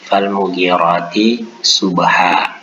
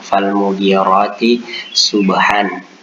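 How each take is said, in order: First: The last word ends with a lengthened vowel. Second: The last word ends with an n sound. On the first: The speaker calls it right. "kita baca menjadi fal mughirati subha" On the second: The speaker calls it wrong. "tulisannya subhan"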